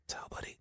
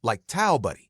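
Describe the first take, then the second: First: Breathy aside. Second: Quicker pass at towel buddy; a brisker retake of towel buddy; faster. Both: Shown as a demonstration. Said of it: "No, faster".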